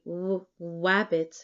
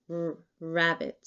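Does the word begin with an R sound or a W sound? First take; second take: W sound; R sound. First: The word begins with a W sound. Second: The word begins with an R sound. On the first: A speech sound has been replaced by another. The speaker calls it wrong. "one might say w wabbit" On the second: The intended sound is produced. The speaker calls it right. "rather than r rabbit"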